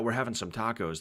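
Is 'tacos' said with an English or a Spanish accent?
English. Tacos is said with a plain English accent. "they don't just say"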